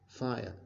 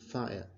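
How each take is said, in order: The two takes are said the same way.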